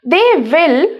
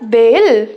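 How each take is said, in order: First: Both words are said fully and separately. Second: The words are joined into one short syllable.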